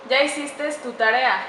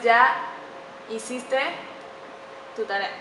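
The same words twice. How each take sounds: First: "hiciste" said as "hicistes" with an added final s; mispronounced example. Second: "hiciste" said carefully with no final s; a careful, word-by-word "hiciste" ending cleanly on e; correct pronunciation. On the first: Teacher demonstrating the common mispronunciation "hicistes" to students. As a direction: say "hiciste" wrongly as "hicistes", a little slow. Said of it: "Hiciste está mal pronunciado". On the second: Teacher modelling the correct "hiciste" for students, careful and clean. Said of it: "La correcta pronunciación es". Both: Shown as a demonstration.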